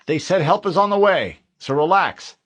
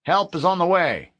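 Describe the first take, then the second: First: Higher, louder forced reassurance; corporal to his men. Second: Higher, louder radio reassurance; officer's last word over the radio. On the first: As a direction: tell the men to relax, loudly. Harlan tells his men. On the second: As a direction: promise help firmly. The voice came back online. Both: Acted.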